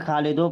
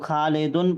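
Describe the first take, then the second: First: The word ends with an o sound. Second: The word ends with an n sound. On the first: The speaker calls it wrong. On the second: The speaker calls it right.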